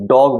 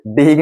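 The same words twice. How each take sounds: First: डॉग with a round "o" after the D sound; correct pronunciation. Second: डेग with an "ay" vowel in place of "o"; wrong pronunciation. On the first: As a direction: say डॉग as "dawg". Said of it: "इसलिए आप इसको डॉग बोलते हो". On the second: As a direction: say डेग as "dayg". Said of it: "नहीं बोलते हो". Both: Shown as a demonstration.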